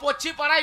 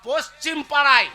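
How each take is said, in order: First: The first word ends without its final m sound. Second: The first word ends with a clear m sound. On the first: The speaker calls it wrong. "ওরে মূর্খ পশ্চি পাড়ায় নয়" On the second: The speaker calls it right. "বল পশ্চিম পাড়ায়"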